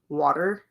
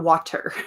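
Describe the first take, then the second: First: The middle consonant is a soft D sound. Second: The middle consonant is a crisp T sound. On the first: The speaker calls it right. "It's definitely like W A D D E R" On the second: The speaker calls it wrong. "I don't think anyone pronounces it with a T. It's not water"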